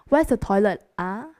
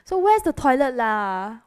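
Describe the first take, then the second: First: It sounds neutral, rising at the end. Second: It sounds frustrated and impatient.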